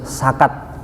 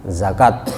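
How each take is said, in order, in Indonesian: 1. Kata ini diawali dengan bunyi s. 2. Kata ini diawali dengan bunyi z.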